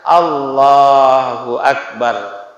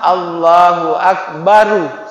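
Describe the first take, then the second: First: The last word ends on a consonant r. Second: The last word ends with an added u vowel. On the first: The speaker calls it right. "kita katakan Allahu Akbar" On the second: The speaker calls it wrong. "salah juga kalau ada dhammah"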